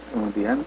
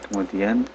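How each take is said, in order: No difference in how they are said.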